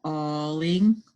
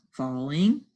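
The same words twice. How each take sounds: First: Falling split into f and a drawn-out alling; sounded out. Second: Said in the usual way. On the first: Shown as a demonstration. Teacher decoding for the class, falling sounded out. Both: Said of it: "words we just sounded out".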